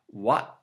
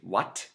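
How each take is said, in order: First: The word ends with a glottal stop. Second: The word ends with a clear T sound.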